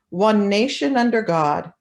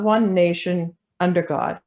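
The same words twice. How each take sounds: First: It is said without a pause after nation. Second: It is said with a pause after nation.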